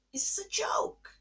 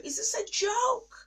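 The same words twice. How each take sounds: First: Whispered, drained of voice; broken whisper. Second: Much higher, louder, pleading disbelief; anguished high cry. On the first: In the bathroom while the kids sleep, whispering. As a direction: let it collapse into a whisper. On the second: Alone in the bathroom, crying out to God in anguish. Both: Retold or imitated. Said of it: "And I'm like".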